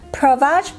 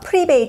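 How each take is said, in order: First: The name is pronounced with American-style sounds. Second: The name is pronounced with Korean-style sounds. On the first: "미국식 발음으로는" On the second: "한국에선 프리베이지라고 하고요"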